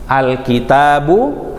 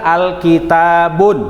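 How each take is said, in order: First: The word ends on a vowel, without n. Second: The word ends with an n sound. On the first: The speaker calls it right. "Diganti dengan dom, dommah" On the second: The speaker calls it wrong. "Nggak boleh dibaca alkitabun"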